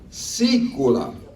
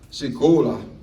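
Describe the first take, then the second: First: The stress is on the first syllable. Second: The stress is not on the first syllable. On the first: The speaker calls it right. "The accent, you see it on the I. You have to say it like that" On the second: The speaker calls it wrong. "Otherwise, you're going to be saying this, which means you're going to be ruining it"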